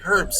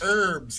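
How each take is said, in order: First: The word begins with a clear H sound. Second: The word begins without an H sound. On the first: This is how the other person says it. "you say herbs, so the H is not silent" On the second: This is how it is said in the United States. "it's herbs in the United States"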